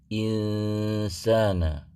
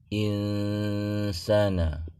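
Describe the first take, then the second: Both takes have the same delivery.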